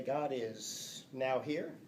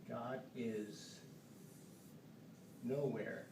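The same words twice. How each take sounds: First: Slow "now here" as two words; spaced reading. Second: Quiet "nowhere" run together; nowhere as one word. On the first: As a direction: pause between "now" and "here". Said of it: "Read it for me right now". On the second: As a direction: softly read it "nowhere". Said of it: "Or does it say". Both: Shown as a demonstration.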